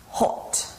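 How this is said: It is said in a British accent.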